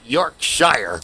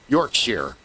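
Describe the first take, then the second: First: The last syllable sounds like 'shire'. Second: The last syllable sounds like 'sheer'. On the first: The speaker calls it wrong. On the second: The speaker calls it right. "It's pronounced sheer"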